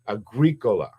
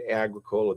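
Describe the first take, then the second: First: The name is said with a Latin pronunciation. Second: The name is said with an Americanized pronunciation. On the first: This is the Latin word for farmer. "But when you study Latin, agricola" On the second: This is how the owner says his own name. "He pronounces it Agricola, the guy that owns it"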